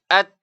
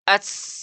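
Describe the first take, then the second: First: The sound is stopped briefly, then released. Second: The sound flows on without any stop. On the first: The speaker calls it right. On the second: The speaker calls it wrong. "tidak ada tahanan"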